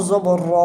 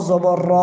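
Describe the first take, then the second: The two takes are said the same way.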